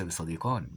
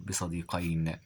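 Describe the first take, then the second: First: بصديقان ending in a long -ān; wrong dual ending. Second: بصديقين ending in -ayn; correct dual ending. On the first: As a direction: say بصديقان with a long aa before the final n. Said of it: "وليس بصديقان". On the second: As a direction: say بصديقين with an ay glide before the final n. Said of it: "بصديقين وليس بصديقان". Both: Shown as a demonstration.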